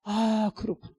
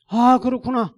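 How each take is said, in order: First: Higher-pitched moment of realisation; dawning realisation. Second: High, loud cry of realisation; emphatic realisation. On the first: Pastor grasping God's rebuke, dawning realisation. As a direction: let the truth sink in. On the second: Pastor grasping God's rebuke, loud emphatic realisation. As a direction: proclaim it as a sudden revelation. Realisation repeated at full force. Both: Retold or imitated.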